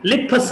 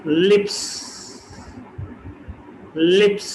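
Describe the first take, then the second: First: लिप्स with puff on p; wrong aspirated p. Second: लिप्स with no puff; plain p. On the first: Teacher shows the wrong लिप्स. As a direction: say लिप्स as liphs. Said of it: "लिप्स नहीं कह सकते". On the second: Teacher models correct लिप्स. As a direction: say लिप्स without aspiration. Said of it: "तो लिप्स नहीं". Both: Shown as a demonstration.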